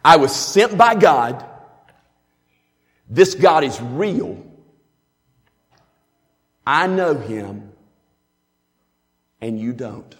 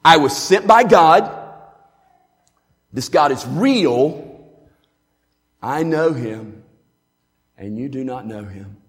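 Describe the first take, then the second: First: Proclaiming it with a raised voice, slowing on the middle lines. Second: Louder again, then dropping away at the end; a lifted-voice sermon in four points; raised proclamation. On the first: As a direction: cry it out like a preacher. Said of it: "hear him with the, the elevated voice". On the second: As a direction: proclaim each point, then let it fall. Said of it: "Now that's the four-point sermon right there". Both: Shown as a demonstration.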